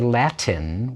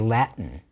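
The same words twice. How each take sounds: First: The middle consonant is a clear T sound. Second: The middle consonant is a glottal stop. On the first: The speaker calls it wrong. "we don't say Latin" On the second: The speaker calls it right. "we say Latin"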